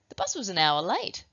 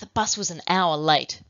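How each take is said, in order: First: The sentence is said in a surprised tone. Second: The sentence is said in an angry tone. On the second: "with the angry emotion"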